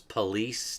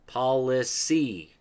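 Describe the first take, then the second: First: The word is said with two syllables. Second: The word is said with three syllables. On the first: The speaker calls it wrong. "which we pronounce as police today" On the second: The speaker calls it right. "three syllable word, not a two"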